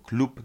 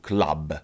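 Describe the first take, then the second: First: The word is pronounced the Polish way. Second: The word is pronounced the English way. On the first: The speaker calls it wrong. "nie wymawiamy tego jako klub" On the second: The speaker calls it right. "tylko po prostu club"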